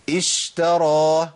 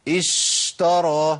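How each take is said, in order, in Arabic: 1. صوت الـ sh بيتمد أكتر من اللازم. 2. صوت الـ sh بيتمد أكتر من اللازم.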